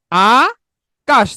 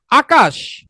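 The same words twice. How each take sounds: First: আকাশ very slowly, long আ, pause, then কাশ; broken into syllables. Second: Said in the usual way. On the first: Shown as a demonstration. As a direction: stretch and separate the two syllables of Akash. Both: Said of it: "ভেঙে উচ্চারণ করলে কি হবে".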